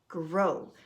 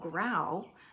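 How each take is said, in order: First: The vowel sounds like 'oh' as in go. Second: The vowel sounds like 'ow' as in cow. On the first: The speaker calls it right. "So O W can make the O sound" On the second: The speaker calls it wrong. "we don't say and watch the rainbow grow. That wouldn't make sense"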